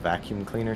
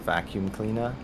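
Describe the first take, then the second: First: The final R in cleaner is pronounced. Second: The final R in cleaner is dropped. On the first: "instead of" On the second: "she says vacuum cleaner"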